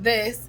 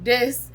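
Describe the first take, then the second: First: The word begins with a TH sound. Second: The word begins with a D sound. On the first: "instead of the T" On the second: "say D instead of the T"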